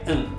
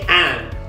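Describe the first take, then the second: First: The word is said reduced with a weak vowel. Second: The word is said in full with a clear vowel. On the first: The speaker calls it right. "you just say in" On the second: The speaker calls it wrong. "you don't say and"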